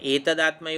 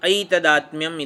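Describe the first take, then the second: First: The word begins with a plain 'e' vowel. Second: The word begins with an 'ai' vowel. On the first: The speaker calls it wrong. "એતદાત્મ્ય એવું નથી વાંચવાનું" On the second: The speaker calls it right. "ઐ હા"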